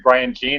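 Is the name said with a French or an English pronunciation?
English. The name has an English, Alberta-style pronunciation. This is how people in Alberta may say it. "I suspect in Alberta it might be"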